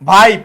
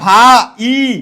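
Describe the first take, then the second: First: The word is said as one smooth syllable. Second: The word is split into two separate parts. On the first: The speaker calls it right. "একটার মতো উচ্চারিত হয়" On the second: The speaker calls it wrong. "আমরা কি বলি এটা ভা ই, ভা ই, এরকম না"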